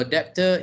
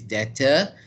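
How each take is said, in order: First: DEBTOR said "DEP-tuh"; wrong pronunciation. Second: DEBTOR said "DET-uh"; correct pronunciation. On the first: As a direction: let the B be heard in DEBTOR as a P. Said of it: "debtor is wrong". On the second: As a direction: keep the B silent in DEBTOR. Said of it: "The correct pronunciation is". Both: Shown as a demonstration.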